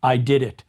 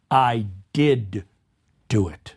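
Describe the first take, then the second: First: Said in the usual way. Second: "do" pressed low and falling; stress on do. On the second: Shown as a demonstration. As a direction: insist on "do" as if denying doubt. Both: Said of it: "emphasis on do".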